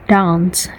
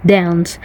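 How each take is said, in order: First: "dance" with a long back "ah", like "dahnce". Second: "dance" with a short flat a as in "cat"; flat-vowelled "dance"; non-RP dance. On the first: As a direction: say "dance" the Queen's English way, broad a. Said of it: "R P pronunciation". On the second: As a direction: say "dance" with the front "a", not "ah". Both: Shown as a demonstration.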